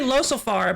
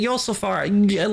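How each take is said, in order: First: The name begins with an L sound. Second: The name begins with a Y sound. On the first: Other people say it this way. "they keep pronouncing it Losofar" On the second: The speaker says it this way. "but I was pronouncing it Yosulfar"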